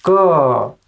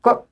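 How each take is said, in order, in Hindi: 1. क के बाद छोटी अ स्वर ध्वनि आती है। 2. क बिना किसी स्वर के अकेला बोला जाता है। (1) "इसमें अ का साउंड आ रहा है" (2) "अगर इसमें अ का साउंड नहीं होगा"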